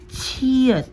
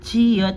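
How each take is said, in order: First: The ch sound has a puff of air. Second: The ch sound has no puff of air. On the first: "na may hangin" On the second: "Unlike ni chiyot pag nasa unahan na soft C H lamang"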